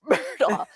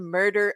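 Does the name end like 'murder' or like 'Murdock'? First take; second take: Murdock; murder. First: The name ends with an 'ock' sound. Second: The name ends with an 'er' sound. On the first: The speaker calls it right. "now it's Murdaugh. No matter what, it's Murdaugh" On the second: The speaker calls it wrong. "I called him murder"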